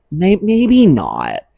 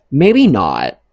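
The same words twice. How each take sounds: First: "maybe not" stretched slow and higher, with a stutter start; slow drawn-out repeat. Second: Said in the usual way. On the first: Shown as a demonstration. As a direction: drag it out for emphasis.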